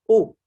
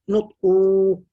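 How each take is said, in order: First: The vowel is short and clipped. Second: The vowel is drawn out long. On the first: The speaker calls it right. "no mad" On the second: The speaker calls it wrong.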